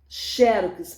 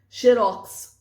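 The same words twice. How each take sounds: First: "Xerox" stressed on XÉ; XÉ-rox, first syllable leads in "Xerox"; paroxytone stress. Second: "xerox" punched loud on ROX; xe-ROX, last syllable hit hard in "xerox"; oxytone stress. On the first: Teacher showing two pronunciations, first-syllable stress on "Xerox". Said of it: "paroxítona". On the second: Teacher showing two pronunciations, loud final stress on "xerox". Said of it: "oxítona". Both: Shown as a demonstration.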